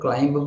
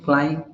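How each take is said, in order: First: The b sound is pronounced at the end. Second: The b sound is left silent at the end. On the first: The speaker calls it wrong. "हम लोग क्लाइंब बोल देते हैं" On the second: The speaker calls it right. "बी silent in क्लाइम"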